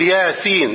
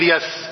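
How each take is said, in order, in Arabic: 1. تُقرأ كل حروفها باسمها الكامل. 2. تُقرأ الحروف أصواتًا قصيرة. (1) "تقول ياسين" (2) "لا تقول يس"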